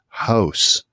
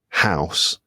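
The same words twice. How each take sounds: First: The vowel sounds more like a rounded oh. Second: The vowel sounds like ow, mixing ah and uh. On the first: "Canadians, it sounds more like an O sound" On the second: "I'll pronounce it ow"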